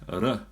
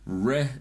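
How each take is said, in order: First: The R is rolled or tapped with the tongue. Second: The R is an English-style R, not rolled. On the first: "R is Maori" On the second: "R is English"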